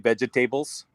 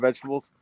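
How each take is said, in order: First: The word is said in an imitated, unusual pronunciation. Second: The word is said in an ordinary, usual pronunciation. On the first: It copies how a chef in a commercial said it. "I always say vegetables now" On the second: It is the normal everyday way of saying it. "instead of vegetables"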